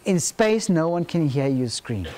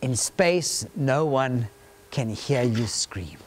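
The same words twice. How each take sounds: First: Said in the usual way. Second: Low, slow trailer narrator; horror trailer voice. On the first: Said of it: "Do you want to go and see that movie?". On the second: Shown as a demonstration. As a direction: sink deep and drag the last words. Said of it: "That tagline says".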